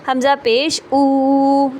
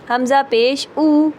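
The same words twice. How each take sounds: First: The final vowel is drawn out long. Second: The final vowel is short and smooth. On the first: The speaker calls it wrong. "इस तरह से खींच के नहीं पढ़ना" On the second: The speaker calls it right. "Normal तरीके से"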